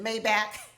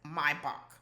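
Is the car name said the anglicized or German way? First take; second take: anglicized; German. First: The name is said with an anglicized pronunciation. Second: The name is said with a German pronunciation. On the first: This is how the car's owner says it. The speaker calls it wrong. "Denham pronounced it Maybach" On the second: This is how Germans say it. The speaker calls it right. "That's how the Germans pronounce it"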